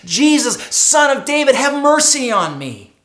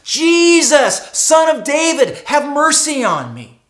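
First: Calling out louder, pleading; crying out. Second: Pleading cry, higher and louder; the beggar crying out again, louder. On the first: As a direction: cry out to Jesus for mercy. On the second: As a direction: call out again, more desperate. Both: Acted. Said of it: "begins to cry out to Jesus".

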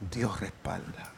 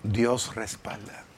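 First: "Dios respalda" dropped to a slow, much softer, almost whispered echo; slow, barely-there "Dios respalda"; hushed echo. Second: "Dios respalda" said slowly and softer, each word weighed; slow soft emphasis. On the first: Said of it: "echo of the refrain, near whisper". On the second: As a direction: let "Dios respalda" land slowly and gently. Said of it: "repeated sermon line, slowed". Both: Acted.

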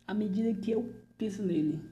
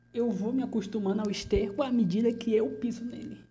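First: Said in the usual way. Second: Louder, higher bitter declaration; bitter outburst. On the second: Acted. Prisoner declares his resignation loudly to the delegado. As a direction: throw the line out with force.

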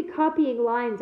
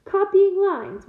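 First: Said in the usual way. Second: High, loud, drawn-out mocking echo; scornful growl. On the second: A narrator's reading. Gamekeeper repeating the student's complaint, scornful growl. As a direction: throw the phrase back slowly in disbelief. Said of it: "Hagrid growled".

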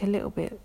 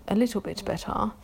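First: Said in the usual way. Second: "little bit better" with crisp, sounded T's; proper enunciation on "little bit better"; pronounced T's. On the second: Shown as a demonstration. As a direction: say "little bit better" carefully, hitting each T. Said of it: "pronouncing my T's and stuff".

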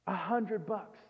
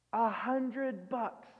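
First: Said in the usual way. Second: A hundred bucks stretched slowly, each word weighed; drawn out slowly. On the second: Shown as a demonstration. Preacher slowly repeating the tiny debt for contrast. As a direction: linger on A hundred bucks to mock the small sum.

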